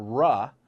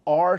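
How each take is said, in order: First: R sounded out as "ruh". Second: Said in the usual way. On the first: Shown as a demonstration. Memory coach giving the sound for four, R said "ruh". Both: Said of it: "the R sound".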